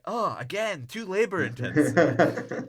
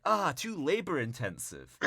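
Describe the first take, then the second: First: High, loud hammed-up complaint; mock exasperated whine. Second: High-pitched complaint in imitation of a slacker; mock whiny refusal. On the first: [name] turns down selling sperm, mock exasperated whine. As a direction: wail it as a put-upon slacker. [name] rejects yet another job idea. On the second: [name] turns down filling potholes, mock whiny refusal. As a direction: whine it to get out of work. [name] rejects a second job idea.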